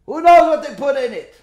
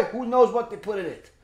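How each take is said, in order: First: "Who knows what they put in it?" again, higher and louder, hitting "knows"; louder repeat. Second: Said in the usual way. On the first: Shown as a demonstration. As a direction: drive the question home, louder. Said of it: "first take said plainly". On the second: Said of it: "repeated louder right after".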